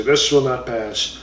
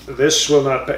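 First: Slow, grave title read; said seriously. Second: Said in the usual way. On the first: Shown as a demonstration. Correcting himself, reads the book title with mock seriousness. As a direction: announce the title with mock gravity. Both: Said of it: "you have to say it seriously".

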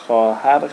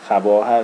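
First: خواهر said as "khahar" with no v sound; spoken form. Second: خواهر sounded out letter by letter as "khvahar"; spelling-out خواهر; spelled form. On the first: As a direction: say خواهر the everyday way, dropping the و. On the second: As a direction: read خواهر as it is written, with the و. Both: Shown as a demonstration.

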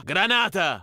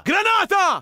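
First: Said in the usual way. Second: High, loud yell of alarm; shouted warning. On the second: Acted. Soldier yells a grenade warning to his squad, alarmed. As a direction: bellow it to warn everyone.

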